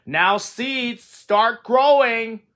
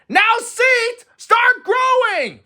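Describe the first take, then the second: First: Calling out slowly to the seeds; slow, raised call; loud call. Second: High, loud, slow shout. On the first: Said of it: "said loudly". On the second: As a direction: yell it out, stretching the words. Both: A narrator's reading.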